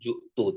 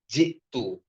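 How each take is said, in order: First: The first vowel is a u sound. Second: The first vowel is an i sound. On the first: The speaker calls it wrong. "bukan ju'tu" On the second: The speaker calls it right. "tapi ji'tu"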